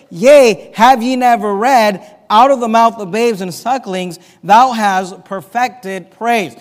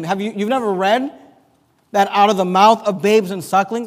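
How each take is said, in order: First: Loud, ringing proclamation of the verse; proclaiming Jesus. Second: Said in the usual way. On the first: Retold or imitated. Preacher voicing Jesus answering the priests, loud and ringing. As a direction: call it out like a rebuke from the temple. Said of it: "Jesus responds to that is this". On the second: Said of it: "So he's asking them".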